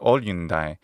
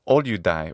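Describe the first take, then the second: First: The middle consonants are an n plus d sound. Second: The middle consonant is a plain d sound. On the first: "or olyundai" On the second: "he says olyudai"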